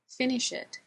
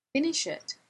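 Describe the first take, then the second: First: Said in the usual way. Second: High start on FINISH, firm drop; insistent repeat. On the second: A narrator's reading. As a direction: FINISH pitched high, then falling on "it".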